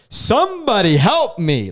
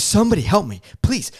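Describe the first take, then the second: First: High, loud, drawn-out plea; intense cry for help. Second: High-pitched urgent cry for help; intense plea. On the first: Passenger calling to two ladies as doors shut, intense. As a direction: call out slowly and desperately, acting it up. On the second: Passenger begging anyone at the gate for help, intense. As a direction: retell a desperate plea, pitch jumping up. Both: Retold or imitated. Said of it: "I was getting so intense".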